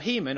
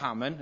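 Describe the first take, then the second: First: The name is said in a standard pronunciation. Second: The name is said in a Welsh pronunciation.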